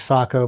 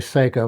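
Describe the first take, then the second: First: The first syllable sounds like 'sah'. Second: The first syllable sounds like 'say'. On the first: The speaker calls it right. "The correct pronunciation is Sako" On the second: The speaker calls it wrong. "a lot of people say Seiko"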